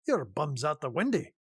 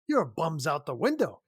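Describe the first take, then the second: First: It is said in a Scottish accent. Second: It is said without a Scottish accent.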